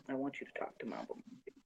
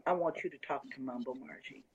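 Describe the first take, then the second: First: Hushed, quickened whisper. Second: Said in the usual way. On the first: Real, not acted. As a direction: whisper it like a confidential aside. Confidential repeat of the request.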